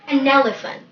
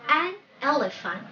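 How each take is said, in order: First: The two words run together as one. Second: The two words are said separately. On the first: The speaker calls it right. "that should sound like a single word" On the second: The speaker calls it wrong. "Not an elephant"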